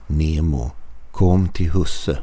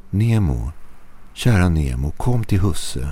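First: Slightly darker voice. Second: Said in the usual way. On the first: A narrator's reading. Stranger mimics owner calling his dog, slightly darker voice. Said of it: "var hans röst lite mörkare". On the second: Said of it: "kallade på honom".

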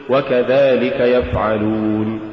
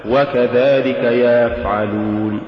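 First: وكذلك يفعلون slow, vowels kept short; careful chant; correct recitation. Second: وكذلك يفعلون with a stretched vowel before يفعلون; wrong drawn-out chant; faulty recitation. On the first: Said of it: "قل". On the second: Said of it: "ولا تقل". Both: Shown as a demonstration.

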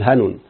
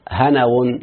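First: هنون said short as "hanun", two clean syllables; correct form. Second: هنون said as "hanawun" with an extra wa syllable; wrong form. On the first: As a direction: say هنون crisply as "ha-nun". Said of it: "لازم تقول هنون". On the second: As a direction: stretch هنون into ha-na-wun, the wrong way. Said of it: "ما تقولش". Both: Shown as a demonstration.

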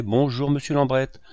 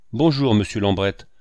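First: Higher-pitched, welcoming greeting; eager welcome. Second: Louder, irritated greeting; fit of fury. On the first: Hucelin greeting Monsieur Lambrette at the entrance, eager welcome. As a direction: greet the guest with lifted voice. Usher greets arriving guests. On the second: Fauvarc interrupted at his work by visitors, furious greeting. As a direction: greet him forcefully, barely civil. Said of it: "dans un accès de fureur". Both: A narrator's reading.

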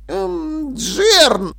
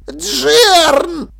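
First: High, hesitant hum, then the name; mumbled hesitation. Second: High, loud, stretched-out cry; alarmed call. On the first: Dil tries to stop Jern, hesitantly. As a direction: falter before calling his name. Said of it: "промямлил Диль". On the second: Dil calls his apprentice, alarmed. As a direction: yelp the name in alarm. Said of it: "окликнул Диль, вытаращив глаза". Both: A narrator's reading.

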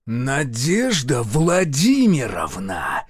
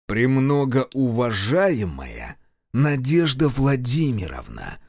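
First: Growled name. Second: Slow, pressed, each syllable apart. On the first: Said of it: "Настоящий звериный рык". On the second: Colonel addresses the woman with pressure, slow syllables. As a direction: spell it out with pressure. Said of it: "С нажимом, чуть ли не по слогам". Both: A narrator's reading.

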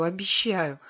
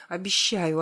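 First: Repeated whimpering plea. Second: A hint of whimpering plea. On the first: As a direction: whimper it once more. (хнычущее повторное обещание) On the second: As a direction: whimper the promise lightly. (с лёгким хныканьем) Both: A narrator's reading. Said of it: "прохныкала я".

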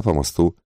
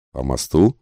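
First: Said in the usual way. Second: "мосту" rising as a question; вопрос. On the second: A narrator's reading. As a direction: ask it with "мосту" lifted at the end. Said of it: "спросил один из пассажиров". (вопросительно, с подъёмом на «мосту»)

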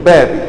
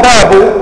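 First: "بابي" said as bābi; genitive ending. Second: "باب" said as bābu, a bit louder; nominative ending. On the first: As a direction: end "بابي" on a clear i. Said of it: "أن تقول". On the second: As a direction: end "باب" on a clear u. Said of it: "هنا الرجل قال". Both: Shown as a demonstration.

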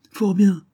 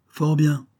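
First: Prim, piqued and much higher; tight-lipped, affronted retort; stiffly offended. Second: Prim, piqued falling repeat; tight-lipped, settling affront; stiffly offended. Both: A narrator's reading. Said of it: "répliqua l'autre d'un air pincé".

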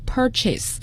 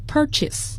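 First: "purchase" misread as "pur" plus the word "chase"; mispronounced purchase. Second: Said in the usual way. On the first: Shown as a demonstration. Teacher warning listeners off a misreading, "purchase" said like pur-chase. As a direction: say "purchase" with a full "chase" as its second part. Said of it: "千万不要读成purchase 这就是错误的发音". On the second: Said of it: "它是purchase".

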